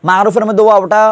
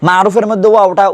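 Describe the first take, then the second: Both takes have the same delivery.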